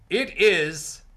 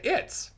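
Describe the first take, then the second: First: Both words are said fully and separately. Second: The words are contracted into one syllable. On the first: It sounds formal. The speaker calls it wrong. "Instead of saying" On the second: It sounds casual. The speaker calls it right. "you say"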